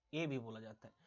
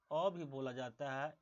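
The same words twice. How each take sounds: First: ए said as a closed "ay", lower. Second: अ said as an open "uh", slowly. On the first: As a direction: give ए the letter-name sound. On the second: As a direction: give अ an open sound, drawn out. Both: Shown as a demonstration. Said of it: "इस ए को".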